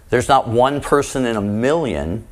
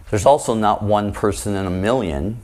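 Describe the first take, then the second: First: Not lifted with a slight rise; stress on not. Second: Also lifted, rising at the end; stress on also. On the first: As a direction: lean on the word not. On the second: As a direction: lean on the word also. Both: Shown as a demonstration.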